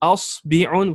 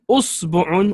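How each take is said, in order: First: The vowel after the b is i. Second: The vowel after the b is u. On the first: "with a kasra on the ba" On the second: "with dhamma, two dhammas"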